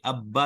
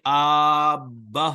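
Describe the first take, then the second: First: The first vowel is short before a doubled consonant. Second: The first vowel is drawn out long. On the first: The speaker calls it right. "बल्कि अब्बा ही रहे" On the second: The speaker calls it wrong. "हमजा को न खींचे कि आब्बा हो जाए"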